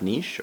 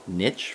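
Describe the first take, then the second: First: The word has a non-American pronunciation. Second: The word has an American pronunciation.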